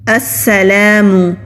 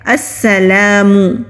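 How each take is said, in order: The two takes are said the same way.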